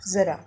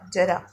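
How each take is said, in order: First: The word begins with a z sound. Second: The word begins with a j sound. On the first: "ये ज के नीचे बिंदी लगी है तो इसको क्या पढ़ेंगे?" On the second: "ज र आ"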